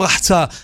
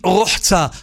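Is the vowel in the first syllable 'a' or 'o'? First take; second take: a; o. First: The first syllable has an 'a' vowel. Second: The first syllable has an 'o' vowel. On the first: The speaker calls it wrong. "לא אומרים רחצה" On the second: The speaker calls it right. "על משקל שומרה, זוכרה"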